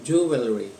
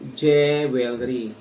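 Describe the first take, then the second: First: It begins with a full 'joo' sound. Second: It is read letter by letter, Tagalog style. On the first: The speaker calls it right. "hindi ho siya J, kung hindi Ju" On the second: The speaker calls it wrong. "binabasa natin na parang Tagalog"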